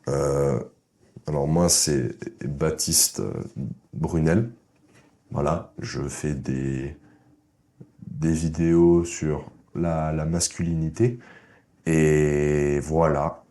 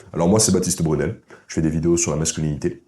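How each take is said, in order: First: Slow, halting, lower and quieter, full of pauses; hesitant mumbled intro. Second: Said in the usual way. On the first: Shown as a demonstration. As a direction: stumble through it like a shy guy. (présentation hésitante et lente, voix basse) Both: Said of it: "Petite comparaison".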